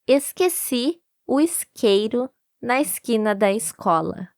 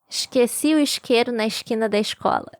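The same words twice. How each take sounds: First: It is said in a São Paulo accent. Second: It imitates an accent that hisses every S.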